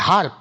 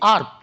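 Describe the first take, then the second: First: It starts with an h sound. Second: It starts without an h sound. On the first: This is the British way. "ব্রিটিশরা বলে হার্ব, এইচ উচ্চারণ করবে।" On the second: This is the American way. "আমেরিকানরা বলে কি? আর্ব, এইচ উচ্চারণ করে না।"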